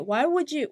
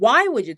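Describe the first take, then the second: First: It sounds like a genuinely curious question. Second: It sounds angry and accusing, demanding a reason. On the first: The speaker simply wants to know the reason. "이렇게 궁금해서가 아니라" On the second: The speaker is confronting someone over what they did. "도대체 왜? 이러, 이렇게 따지는 거예요"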